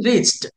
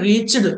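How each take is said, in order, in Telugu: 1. ఆ చివరి భాగాన్ని t శబ్దంగా అంటారు. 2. ఆ చివరి భాగాన్ని వేరే సిలబుల్గా అంటారు. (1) "చాతో ఎండ్ అయినప్పుడు ఈడిని టాలా చెప్పాలి" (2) "అందుచేతన రీచ్డ్ అనట్లేదు నేను"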